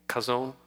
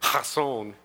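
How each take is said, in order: First: The word begins with a plain, hard K sound. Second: The word begins with a throaty, rasping sound. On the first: "it'll probably be kazon with a K" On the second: "if you actually pronounce it the way the Hebrews do, it's a hak in there"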